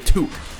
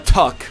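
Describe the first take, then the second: First: The word has a long 'oh' vowel. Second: The word has a short 'uh' vowel. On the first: The speaker calls it right. "It's called a toque" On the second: The speaker calls it wrong. "It's not called a tuck"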